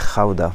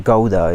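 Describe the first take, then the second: First: The name is pronounced with Dutch sounds. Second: The name is pronounced with English sounds.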